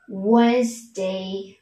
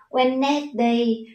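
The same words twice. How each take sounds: First: It is said with the standard natural pronunciation. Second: It is sounded out letter by letter as written. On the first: The speaker calls it right. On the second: The speaker calls it wrong.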